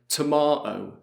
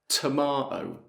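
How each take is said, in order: First: The middle T is a glottal stop. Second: The middle T is a glottal stop.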